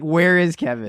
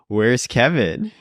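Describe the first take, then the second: First: It sounds direct and openly aggressive. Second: It sounds indirect and passive aggressive. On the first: The displeasure is stated outright. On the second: The displeasure is hinted at, not stated. "It was just very passive aggressive"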